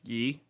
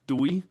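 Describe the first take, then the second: First: The name begins with a Y sound. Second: The name begins with a D sound. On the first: The speaker calls it right. "My name is pronounced like correctly is Yi, Y I" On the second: The speaker calls it wrong. "The worst one would definitely have been so, and it's the most common one"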